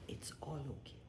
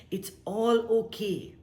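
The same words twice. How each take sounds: First: Whispered. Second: Said in the usual way. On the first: Shown as a demonstration. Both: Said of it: "whispered then repeated aloud".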